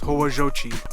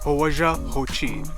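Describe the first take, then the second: First: The two words run together quickly as one. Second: The two words are said separately and clearly.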